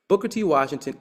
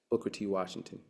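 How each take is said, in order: First: High, loud, ringing proclamation; announcing the name. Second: Quiet, low, dropped name; soft attribution. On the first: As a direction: call the name out like a title. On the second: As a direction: let the name fall away softly. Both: Shown as a demonstration.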